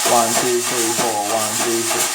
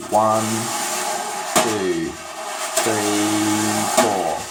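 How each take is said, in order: First: Quick, even count in time; up-tempo count. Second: Slow, spaced-out count, one beat at a time. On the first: Drum teacher counting off the up-tempo pattern quickly over the beat. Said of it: "Up-tempo pattern might be something like this". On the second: Drum teacher counting slowly to demonstrate the pattern, spaced and deliberate. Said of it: "Obviously that's not up-tempo, but I'm just showing you". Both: Shown as a demonstration.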